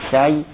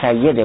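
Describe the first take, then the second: First: The two y sounds are kept apart. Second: The middle y sound is doubled. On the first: This is the earlier unmerged form. "قبلش با تفکیش بوده" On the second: This is the current merged form. "الان سیده با تشدید"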